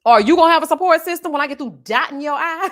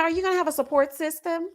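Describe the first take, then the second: First: Louder, laughing mockery of the question; mocking retort. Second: Mildly raised, prim asking voice; quoting the nurse. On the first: Mocking the nurse's question back at her, loud and laughing. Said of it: "Ma'am, go to hell". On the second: Retold or imitated. Retelling the nurse's nosy question, lightly voiced. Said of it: "the lady told me".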